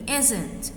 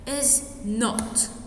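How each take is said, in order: First: It is said as one short contracted word. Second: It is said as two full separate words. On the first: "But if I'm going to add the contraction, it will be isn't"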